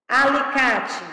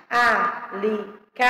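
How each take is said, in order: First: Said in the usual way. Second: Slow "alicate", a-li-ca-te in four spaced beats; syllable by syllable. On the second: Shown as a demonstration. Teacher showing how the word separates, syllable by syllable. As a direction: count out each syllable of "alicate". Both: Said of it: "como é que se separa".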